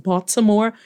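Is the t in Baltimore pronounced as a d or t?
t. The t is pronounced as a clear t.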